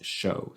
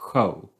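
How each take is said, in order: First: It is said with an English pronunciation. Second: It is said with a Swedish pronunciation. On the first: "the English pronunciation is show" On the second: "a typical Swedish word uh, spelled like that I would pronounce show"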